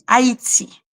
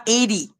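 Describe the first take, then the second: First: "Haïti" said in French, a-i-ti; prononciation française. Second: "Haïti" said the English way, like "AY-dee"; English vowel and soft d in "Haïti"; mauvaise prononciation. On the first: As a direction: say "Haïti" with silent h, three syllables. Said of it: "On dit Haïti". (« Haïti » à la française, h muet) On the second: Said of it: "On ne dit pas". (« Haïti » prononcé à l'anglaise) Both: Shown as a demonstration.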